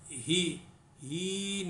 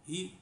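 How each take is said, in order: First: The vowel is stretched out long. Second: The vowel is kept short. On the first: The speaker calls it wrong. "उसको हम ही ही नहीं पढ़ेंगे" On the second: The speaker calls it right. "उसको ही ऐसे पढ़ना सिर्फ"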